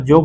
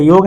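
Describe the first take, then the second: First: जोग opening with j instead of y. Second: Said in the usual way. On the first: Shown as a demonstration. Teacher showing Nagpuri learners the sound change, j opening जोग. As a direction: say योग as जोग, with a j. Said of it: "ज के रूप में होता है". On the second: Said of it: "या का भी प्रयोग".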